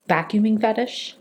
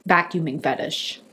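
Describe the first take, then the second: First: Disbelieving, rising at the end; incredulous question. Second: Lower, softer, falling deadpan; flat disbelief. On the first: Repeating the friend's words back in disbelief. Hearing Anthony's explanation. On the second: Telling the audience, deadpan and quieter. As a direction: let it land with dry dismay. Letting it sink in. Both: Retold or imitated.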